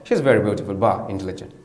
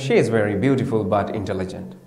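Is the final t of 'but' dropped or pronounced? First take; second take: dropped; pronounced. First: 'But' is said as 'ba' without a t. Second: 'But' is said in full with its final t.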